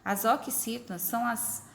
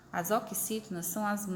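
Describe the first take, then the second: No difference in how they are said.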